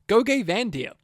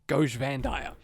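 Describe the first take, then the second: First: The name is said in a playful, distorted way. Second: The name is said in a plain, ordinary way.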